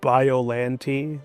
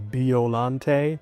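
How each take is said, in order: First: It uses the English dub pronunciation. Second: It uses a pronunciation closer to Japanese. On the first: "The dub says it Biollante" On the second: "to be more accurate to the Japanese word"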